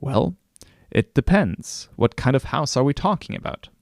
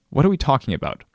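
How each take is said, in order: First: Coy. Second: A touch higher, pushing back at the friend; mildly exasperated, pressing him; tired of a vague question, mildly impatient. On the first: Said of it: "coyly respond". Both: Retold or imitated.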